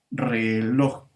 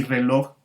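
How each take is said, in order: First: "reloj" drawn out, landing on final "loj"; stress on last syllable. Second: Said in the usual way. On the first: Shown as a demonstration. Teacher proving the word is aguda, "reloj" stretched with stressed ending. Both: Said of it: "estas palabras son agudas".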